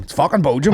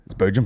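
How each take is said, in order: First: Belgium said as "Boh-zhum", pitched up and louder; mock Belgium. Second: Said in the usual way. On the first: Shown as a demonstration.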